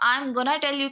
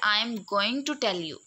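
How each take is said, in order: First: "Going to" is reduced to "gonna". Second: "Going to" is said in full, word by word. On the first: "हम sentence use करते हैं I am गोना tell you" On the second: "वो यही चीज़ use करते हैं"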